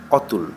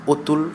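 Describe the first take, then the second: First: অতুল with an open aw sound, ɔtul; open vowel take. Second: অতুল said otul with a rounded closed o; closed o take. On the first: Teacher shows the open-vowel reading of অতুল first, open ɔ. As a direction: say অতুল starting on a wide open ɔ. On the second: Teacher gives the correct closed-o reading of অতুল, rounded o. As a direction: start অতুল on a tight o, like ওতুল. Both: Shown as a demonstration. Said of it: "চিহ্নিত নিয়মের ব্যতিক্রম।".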